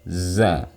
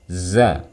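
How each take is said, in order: The two takes are said the same way.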